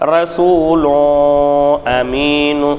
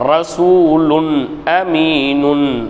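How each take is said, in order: First: The n after each word is dropped. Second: The n after each word is pronounced clearly. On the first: The speaker calls it wrong. "அப்படின்னு ஓதக்கூடாது" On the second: The speaker calls it right. "இந்த தன்வீன் பெற்ற அந்த லாமை தெளிவாக வெளிப்படுத்தி இங்கே ஓதணும்"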